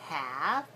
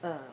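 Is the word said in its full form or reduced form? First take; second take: full; reduced. First: It is said as full have with clear h. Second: It is reduced so it sounds like of. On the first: The speaker calls it wrong. "Not have" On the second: The speaker calls it right. "so that it sounds like of"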